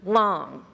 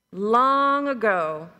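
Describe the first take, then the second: First: Said in the usual way. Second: Long ago, with long stretched slow and louder; drawn-out long. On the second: A narrator's reading. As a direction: draw out long like a storyteller opening.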